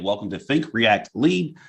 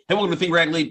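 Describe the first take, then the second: First: It is said slowly and clearly. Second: It is said fast and rushed.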